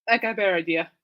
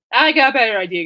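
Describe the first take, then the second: First: Said in the usual way. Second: "I got a better idea" said again, louder and more emphatic; louder repeat. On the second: Shown as a demonstration. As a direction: push "I got a better idea" out with more energy the second time.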